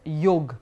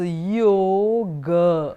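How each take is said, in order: First: The final vowel is dropped. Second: The final vowel is fully pronounced. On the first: This is how it is said in Hindi. "will be pronounced as yog" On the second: This is how it is said in Sanskrit. "you would have to pronounce it completely like that"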